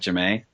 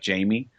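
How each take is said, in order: First: The name ends in an 'ay' sound. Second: The name ends in an 'ee' sound. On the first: This is how the character herself says it. "but she pronounces it Jamae" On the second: This is how the spelling would usually be read. "spelled J A M I E, like Jamie"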